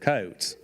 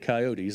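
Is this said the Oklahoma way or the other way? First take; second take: Oklahoma way; other way. First: It is said the way Oklahomans say it. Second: It is said in a non-Oklahoma way. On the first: The speaker calls it right. "They're coyotes" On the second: The speaker calls it wrong. "They ain't coyotes"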